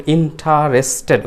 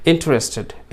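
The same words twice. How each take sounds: First: ইন্টারেস্টেড with a full "ta", "in-ta-res-ted"; four full syllables in ইন্টারেস্টেড, "in-TA-res-ted"; wrong pronunciation. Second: ইন্টারেস্টেড as three syllables, "IN-tres-ted"; correct pronunciation. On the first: Teacher showing what to avoid, ইন্টারেস্টেড as "in-ta-res-ted". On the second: Teacher correcting learners, ইন্টারেস্টেড shortened to "in-tres-ted". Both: Shown as a demonstration. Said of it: "ওরকম না".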